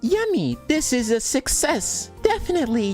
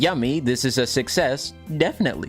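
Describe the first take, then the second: First: It is read in a put-on character voice. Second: It is read in a plain, ordinary voice.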